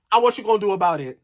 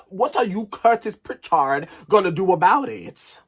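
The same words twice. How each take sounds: First: Said in the usual way. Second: "Curtis Pritchard" slowed and picked out; emphatic challenge. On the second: Real, not acted. Vlogger challenging Curtis by "Curtis Pritchard", emphatic challenge. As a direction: land hard on "Curtis Pritchard". Challenge repeated with full name.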